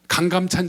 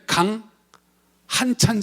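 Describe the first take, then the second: First: The middle syllable is pronounced gam. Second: The middle syllable is pronounced han. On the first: This is the common reading of the name. The speaker calls it wrong. "가장 잘못 읽는 것 중에 하나가" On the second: This is the original reading of the name. The speaker calls it right. "원래 강한찬 장군입니다"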